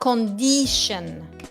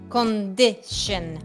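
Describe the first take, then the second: First: The vowel after the d is long. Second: The vowel after the d is short. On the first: The speaker calls it wrong. "not condition" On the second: The speaker calls it right. "La I es una I corta"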